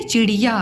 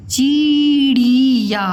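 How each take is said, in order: First: चिड़िया with short, quick i sounds; correct short vowels. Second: चिड़िया drawn out as "cheee-reee-ya"; very slowly stretch each i of चिड़िया; wrong long vowels. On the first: Teacher gives the right word, short vowels in चिड़िया. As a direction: say चिड़िया without stretching either i. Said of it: "ये उच्चारण सही है". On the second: Teacher shows a mistake, overlong vowels in चिड़िया. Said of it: "ये नहीं बोलते हो". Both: Shown as a demonstration.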